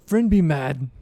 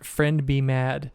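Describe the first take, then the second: First: Slow, lightly voiced simple-minded Verbeeg; simple monster warning. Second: "friend be mad" slowly, each word separate; clarifying enunciation. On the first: Verbeeg repeats the warning to Rogar, slow simple voice. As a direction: draw out each simple word. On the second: Shown as a demonstration. Game master clears up a mishearing, "friend be mad" slowly enunciated. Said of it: "is he saying friendly man?".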